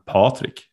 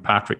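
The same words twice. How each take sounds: First: The first vowel is long and O-like. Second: The first vowel is short and plain. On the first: This is how the name is said in Sweden. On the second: This is how others usually say the name.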